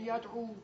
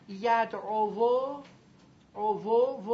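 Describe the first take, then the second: First: "یدعو" eased, ending in a plain long "u"; reduced form. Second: "یدعو" drawn out with a full, heavy "vo"; heavy unreduced form. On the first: Teacher showing the fixed word, eased "یدعو" ending in "u". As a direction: say "یدعو" lightly as "yad'u", softer. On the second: Teacher showing students the heavy waw, laboured "یدعو" ending in "-ovo". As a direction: stretch "یدعو" loud and slow, voicing the final waw. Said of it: "واو سنگینه". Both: Shown as a demonstration.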